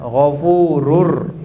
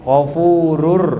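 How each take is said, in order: First: The final n merges into an r sound. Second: The final n merges into an r sound.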